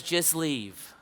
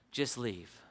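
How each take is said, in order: First: Slightly lowered voice, firm falling end; understated dismissal. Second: Very soft, low imitation of a dying man; faint dismissal. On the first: Retold or imitated. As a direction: send the visitor away without force. Dying man dismisses visitor, first take. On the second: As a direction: let the dismissal sink almost to nothing. Dying man repeats it more faintly.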